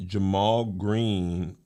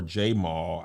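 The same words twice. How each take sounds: First: Jamal said slowly as juh-MALL; first syllable juh. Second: Jamal said slowly as JAY-mall; first syllable jay. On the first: Host unsure how it's pronounced, Jamal as juh-MALL. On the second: Host giving the alternative name, Jamal as JAY-mall. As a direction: open Jamal with a full "jay", like the letter. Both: Shown as a demonstration. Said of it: "don't know again how it's pronounced".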